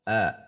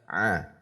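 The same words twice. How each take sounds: First: The vowel starts without pressing in the throat. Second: The vowel starts with pressure mid-throat. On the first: The speaker calls it wrong. "tidak tekan" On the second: The speaker calls it right. "kalau ditekan di tengah tenggorokan"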